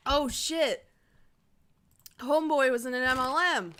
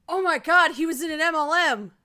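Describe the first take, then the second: First: Loud excited exclaim. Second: Loud gasping shock; gasp, then shout it out. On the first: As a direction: blurt it out excitedly. Repeats discovery excitedly. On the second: Shocked discovery while reading. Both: Real, not acted.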